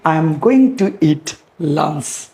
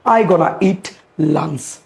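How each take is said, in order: First: Each word is said fully and separately. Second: The words are run together in a reduced form. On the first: "instead of saying" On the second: "Gonna you can use instead of going to"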